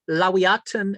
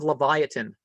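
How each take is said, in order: First: The word is said with a W sound. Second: The word is said with a V sound. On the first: The speaker calls it right. "it's really a W" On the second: The speaker calls it wrong. "You got to kick off all those V's"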